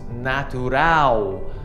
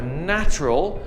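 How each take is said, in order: First: The word ends in a stressed 'ow' sound. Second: The word ends in an unstressed 'ul' sound. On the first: This is the Portuguese word. "in Portuguese it'll be more like a ow. Also in Portuguese we stress that part of the word" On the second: This is the English word. "natural ends in an ul sound"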